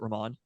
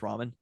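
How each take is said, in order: First: The name is said to sound like 'Ramon'. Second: The name is said like the food ramen. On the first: The speaker calls it wrong. "I pronounced it Ramon" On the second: The speaker calls it right. "but it's ramen"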